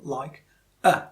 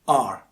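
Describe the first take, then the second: First: The word is said in its reduced, weak form. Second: The word is said in its full, strong form. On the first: "in connected speech, it can take a different form" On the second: "that's the pronunciation in isolation"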